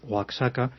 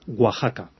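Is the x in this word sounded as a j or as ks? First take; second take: ks; j. First: The x is sounded as ks. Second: The x is sounded like the Spanish jota. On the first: The speaker calls it wrong. "se me ocurrió decirle a un mexicano Oaxaca, casi me mata" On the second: The speaker calls it right. "esto se dice Oaxaca"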